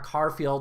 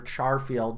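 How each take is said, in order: First: The word starts with a hard k sound. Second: The word starts with a soft ch sound. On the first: "depending on whether or not you pronounce that that that C H as hard" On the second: "or soft"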